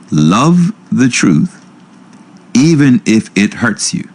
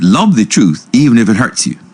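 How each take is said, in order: First: It is spoken at a slower pace. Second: It is spoken at an ordinary pace.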